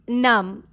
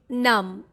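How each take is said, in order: First: The final B is silent. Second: The same.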